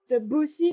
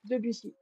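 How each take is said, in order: First: The second syllable carries strong stress. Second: No syllable carries strong stress. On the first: The speaker calls it wrong. "like you kind of put the emphasis on the second syllable" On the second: The speaker calls it right. "without emphasizing anything"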